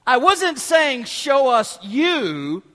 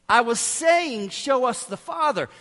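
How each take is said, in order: First: "you" drawn out and rising; slow, loud correction, stretching "you" upward; stress on YOU. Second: "Father" stressed with a firm falling tune. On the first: Philip corrects Jesus who misheard him, stress on "you". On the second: Philip clarifies his request to Jesus, stress on "Father". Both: Retold or imitated. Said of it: "Did Philip think".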